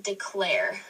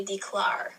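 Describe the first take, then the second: First: Said in the usual way. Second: "declare" mispronounced as dee-clar; "declare" ending like car; wrong vowel. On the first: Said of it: "That's the air sound". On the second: Shown as a demonstration. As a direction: say "declare" with an ar sound instead of air. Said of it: "You don't say declare".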